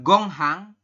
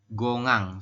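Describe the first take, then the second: First: The middle h sound is clearly pronounced. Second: The middle h sound is dropped entirely. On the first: The speaker calls it wrong. "ini dibacanya bukan gonghang" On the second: The speaker calls it right. "tetapi adalah gongang"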